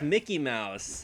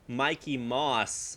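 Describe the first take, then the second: First: The name is said as Mickey Mouse. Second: The name is said as Mikey Moss. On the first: The speaker calls it right. "but it's Mickey Mouse" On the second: The speaker calls it wrong. "I was calling him like Mikey Moss"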